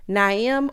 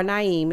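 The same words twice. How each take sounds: First: "Naeem" as NY-um; "Naeem" stressed on the first syllable; first pronunciation. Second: "Naeem" as ny-EEM; "Naeem" stressed on the second syllable; alternative pronunciation. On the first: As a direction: say "Naeem" with a weak second syllable. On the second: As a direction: say "Naeem" with a long ee. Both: Shown as a demonstration. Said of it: "Naeem or Naeem is one of them".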